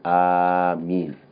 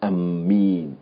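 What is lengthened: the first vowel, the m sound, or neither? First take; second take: first vowel; m sound. First: The first vowel is drawn out long. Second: The m sound is doubled and held. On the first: The speaker calls it right. "It is permissible for you to elongate the Hamza" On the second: The speaker calls it wrong. "it's not permissible to double the meme"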